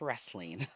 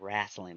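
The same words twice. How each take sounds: First: The word is said in a standard accent. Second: The word is said in a southern accent. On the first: The speaker calls it right. "corrected me saying no" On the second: The speaker calls it wrong. "sometimes my southern accent comes out. I do say wrestling"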